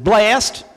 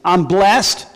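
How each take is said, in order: First: Imitated Southern drawl on "Blessed"; Southern accent. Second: Said in the usual way. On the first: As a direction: say "Blessed" like a Southern mother-in-law. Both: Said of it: "Now you gotta say it with a southern accent".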